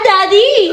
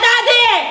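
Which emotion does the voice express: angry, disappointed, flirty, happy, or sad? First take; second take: flirty; angry. First: It sounds playful and flirtatious. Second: It sounds angry and harsh. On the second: "daddy na galit"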